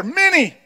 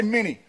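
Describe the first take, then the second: First: "Many" called out high and punchy; emphatic "Many". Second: Said in the usual way. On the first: Shown as a demonstration. Preacher prompting church to repeat "Many" better, emphatic. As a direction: pitch "Many" well up and say it with gusto. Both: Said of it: "You gotta do it better".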